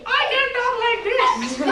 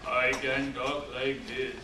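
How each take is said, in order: First: Very high, louder demo voice; high pitch. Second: Very low, softer demo voice; low pitch. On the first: Trainer showing the class pitch, very high voice. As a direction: jump way up in pitch. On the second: Trainer showing the class pitch, very low voice. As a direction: drop way down in pitch. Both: Shown as a demonstration. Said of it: "See the pitch?".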